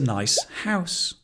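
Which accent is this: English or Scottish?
English. It is said in an English accent. "In England"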